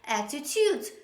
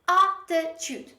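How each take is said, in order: First: The stress is on the second syllable. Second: The stress is on the first syllable. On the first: The speaker calls it wrong. "they put the stress on the last syllable, on the pre-last syllable" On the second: The speaker calls it right. "So the stress is at the beginning of the word"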